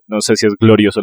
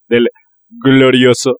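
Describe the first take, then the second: First: Said in the usual way. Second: Mock-proud glorioso; proud team nickname. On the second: Shown as a demonstration. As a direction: sell glorioso like a fan chant.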